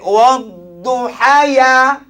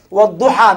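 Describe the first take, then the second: First: The word ends with an added ya sound. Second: The word ends in a long a vowel. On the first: The speaker calls it wrong. "Yang salah kalau orang baca wadduhaya. Itu salah" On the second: The speaker calls it right. "Kenapa kita baca panjang?"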